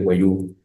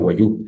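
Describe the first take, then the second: First: The final vowel is long. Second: The final vowel is short. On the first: The speaker calls it right. "el uso de la vocal larga en guayú" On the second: The speaker calls it wrong. "no es guayú"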